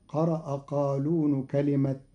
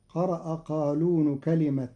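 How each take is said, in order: Both takes have the same delivery.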